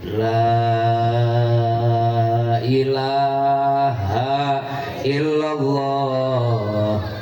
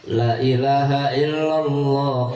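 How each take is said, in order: First: The first syllable 'la' is long. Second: The first syllable 'la' is short. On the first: The speaker calls it right. "Yang benar yang mana? Yang pertama tadi" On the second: The speaker calls it wrong. "La-nya dibaca pendek, tidak dibaca mat"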